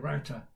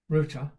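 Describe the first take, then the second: First: Router rhymes with 'outer', American style. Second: Router is said like 'rooter', British style. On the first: This is how it is said on the broadcast. "when I'm broadcasting on Amazon, I say router" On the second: This is how it is said at home. "when I'm with Angelica, I say router"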